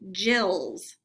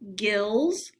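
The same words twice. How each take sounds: First: The g is said as a j sound. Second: The g is said as a hard g. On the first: "or the J sound" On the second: "we could say gills"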